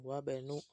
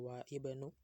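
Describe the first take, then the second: First: The hamza is dropped and the words run together. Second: The hamza is pronounced, keeping the words apart. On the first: The speaker calls it right. "dia diwasolnya disambung" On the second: The speaker calls it wrong. "jadi enggak wa ibnu"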